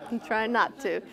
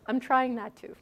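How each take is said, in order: First: Repeating it through a laugh. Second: Said in the usual way. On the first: Retold or imitated. Retelling the priest's reply while laughing. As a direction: say it again while still laughing.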